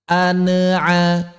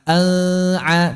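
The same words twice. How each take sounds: First: The n sound is given an echoing bounce. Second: The n sound is blurred and indistinct.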